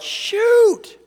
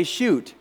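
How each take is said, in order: First: High, loud drawn-out yell. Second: Said in the usual way. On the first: Retold or imitated. Driver slamming on the brakes, panicked high yell. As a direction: cry it out as you hit the brakes. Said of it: "I yelled". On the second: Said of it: "Only I didn't say".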